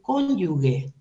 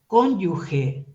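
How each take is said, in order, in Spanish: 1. La g de la última sílaba es dura. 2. La g de la última sílaba es suave. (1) "no se dice cónyuge" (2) "se dice cónyuge"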